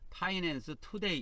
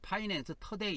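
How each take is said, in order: First: The first vowel of 'today' sounds like 'oo'. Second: The first vowel of 'today' sounds like 'uh'. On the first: This is the official form of the name. "정식 명칭은 파이낸스 투데이" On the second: This follows the original English pronunciation. "영어로 원래 발음할 때는 ... 터데이 이렇게 발음하지 않아요"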